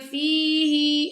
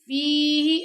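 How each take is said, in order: First: The vowel is drawn out long. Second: The vowel is held short. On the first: The speaker calls it wrong. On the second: The speaker calls it right.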